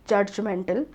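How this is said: It is said with a regional mother-tongue pronunciation. "could be pronounced as"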